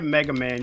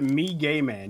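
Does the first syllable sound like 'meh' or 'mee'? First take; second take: meh; mee. First: The first syllable sounds like 'meh', then 'guh'. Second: The first syllable sounds like 'mee', then 'gay'. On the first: The speaker calls it wrong. "You don't say it Mega Man" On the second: The speaker calls it right.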